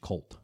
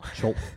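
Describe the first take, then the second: First: The name begins with a hard k sound. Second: The name begins with a ch sound.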